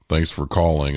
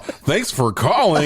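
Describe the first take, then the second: First: It is said with a frown. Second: It is said with a smile.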